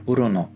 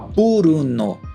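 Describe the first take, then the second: First: A faint, barely voiced U follows the B. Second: A clear, strong U sounds after the B. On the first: The speaker calls it right. "com esse U bem tímido" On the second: The speaker calls it wrong. "você não precisa falar Bruno com ele forte"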